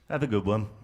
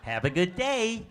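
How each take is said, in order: First: It sounds flat and downbeat, English style. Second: It sounds bright and upbeat, American style.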